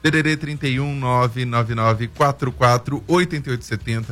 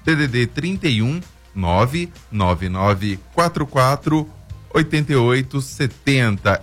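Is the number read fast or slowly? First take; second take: fast; slowly. First: The number is read at normal, quicker speed. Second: The number is read more slowly.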